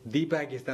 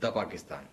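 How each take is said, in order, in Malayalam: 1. 'the' എന്ന വാക്ക് 'thee' എന്ന് ഉച്ചരിക്കുന്നു. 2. 'the' എന്ന വാക്ക് 'thuh' എന്ന് ഉച്ചരിക്കുന്നു. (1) "ദി പാകിസ്ഥാൻ എന്ന് പറയില്ല" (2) "അല്ലാത്തവർക്ക് ദ പറയാ"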